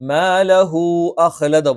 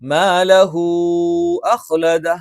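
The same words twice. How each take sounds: First: The vowel after hu is kept short. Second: The vowel after hu is drawn out long. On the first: The speaker calls it wrong. "പോരാ" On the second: The speaker calls it right. "അത് കുറച്ച് അധികം നീട്ടണം"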